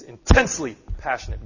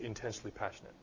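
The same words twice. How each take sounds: First: It is said with strong, intense feeling. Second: It is said flatly, without feeling. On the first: The speaker deeply cares. The speaker calls it right. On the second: The speaker does not really care. The speaker calls it wrong.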